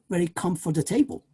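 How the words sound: It is said with Spanish-style mouth movements. The speaker calls it wrong. "you might say"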